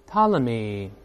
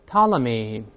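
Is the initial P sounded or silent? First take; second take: silent; silent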